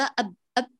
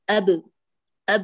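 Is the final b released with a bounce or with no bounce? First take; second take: no bounce; bounce. First: The final b has no echoing bounce. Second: The final b is released with a bounce. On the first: The speaker calls it wrong. "ولا نقول" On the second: The speaker calls it right. "بل نقول أب أب، اعمل اضطراب في المخرج"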